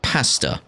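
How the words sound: It is said with a British accent.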